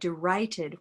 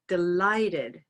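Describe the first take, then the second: First: The middle consonant sounds like an R. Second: The middle consonant is a clear L. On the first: The speaker calls it wrong. "They said derighted when they recorded it" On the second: The speaker calls it right. "the L sound touches the roof of the mouth"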